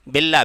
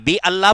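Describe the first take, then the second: First: The first vowel of Allah is dropped. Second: The first vowel of Allah is pronounced. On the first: The speaker calls it right. "वहां पे वो साइलेंट हो जाता है" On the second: The speaker calls it wrong. "बी अल्लाह पढ़ते हैं नहीं"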